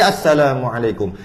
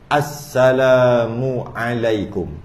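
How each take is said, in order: First: The phrase is said quickly and run together. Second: The phrase is said slowly and drawn out. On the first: "Laju, laju lagi" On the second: "Pelan-pelan eh? Slow motion"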